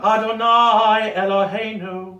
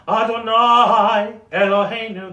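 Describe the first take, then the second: First: There is only a tiny glottal catch between words. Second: There is a clear long gap between the words. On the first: "just a tiny little, right? Just that glottal, glottal stop" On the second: "that's daylight"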